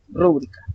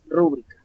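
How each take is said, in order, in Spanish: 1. El acento está en la primera sílaba. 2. El acento está en la segunda sílaba. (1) "si tuviera la tilde en la primera... sería una palabra esdrújula... con la tilde al inicio" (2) "la mayor fuerza de voz al pronunciarse sería en la segunda sílaba"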